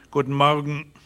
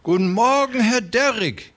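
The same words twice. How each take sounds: First: Lightly voiced, curt reply at normal pitch; cool Magnus. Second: High, loud, oily greeting; fat railway man Beermann. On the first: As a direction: give the greeting back without warmth. Magnus answers coolly. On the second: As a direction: greet them with a fat man's high fawning cheer. Narrator voices fat Beermann. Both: A narrator's reading.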